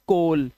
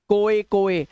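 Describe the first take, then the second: First: It ends in an L, like 'kol'. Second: It ends in a vowel, like 'ko-eh'. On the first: The speaker calls it right. "सिर्फ कोल" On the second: The speaker calls it wrong. "ओए ओए मत पढ़ना, कोए कोए ना"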